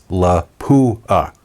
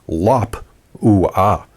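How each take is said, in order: First: The stress is on the second syllable. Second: The stress is on the first syllable. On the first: The speaker calls it wrong. "emphasis on the poo in the middle" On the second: The speaker calls it right. "The P comes earlier when you pronounce it correctly"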